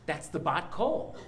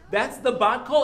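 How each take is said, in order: First: Said in the usual way. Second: Higher and louder, laughing with delight; excited with a laugh. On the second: Real, not acted. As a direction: burst out joyfully with a laugh.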